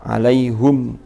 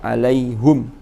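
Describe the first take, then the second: First: The vowel after the h is 'u'. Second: The vowel after the h is 'u'.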